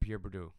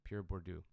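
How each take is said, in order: First: The name is pronounced sloppily and inaccurately. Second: The name is pronounced carefully and more accurately. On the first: The speaker calls it wrong. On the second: The speaker calls it right.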